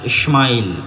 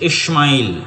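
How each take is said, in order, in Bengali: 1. মাঝের ব্যঞ্জনধ্বনিটি sh উচ্চারণ। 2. মাঝের ব্যঞ্জনধ্বনিটি sh উচ্চারণ।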